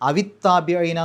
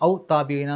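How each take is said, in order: First: An i vowel links aw to the next word. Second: It ends on aw with no linking vowel. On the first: The recitation flows smoothly. The speaker calls it right. "ആ ഒരു ഒഴുക്ക് കിട്ടും" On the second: The recitation becomes difficult. The speaker calls it wrong. "പാരായണം ബുദ്ധിമുട്ടായിരിക്കും"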